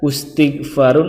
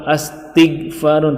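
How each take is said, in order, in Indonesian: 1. Kata ini diawali dengan vokal u. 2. Kata ini diawali dengan vokal a. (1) "tidak boleh dibaca ustighfarun" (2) "atau astighfarun"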